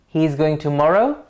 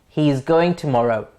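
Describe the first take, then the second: First: The pitch rises at the end. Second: The pitch falls at the end. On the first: It is a question. "It goes up" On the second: It is a statement. "The melody of the first sentence drops at the end"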